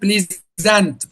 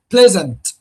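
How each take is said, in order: First: The stress is on the second syllable. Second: The stress is on the first syllable. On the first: The speaker calls it wrong. "If you put stress on the second syllable, you will pronounce it pleasant" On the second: The speaker calls it right. "we pronounce it pleasant"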